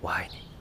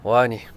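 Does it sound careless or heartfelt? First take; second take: heartfelt; careless. First: It is said warmly, with real feeling. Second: It is said carelessly, without feeling.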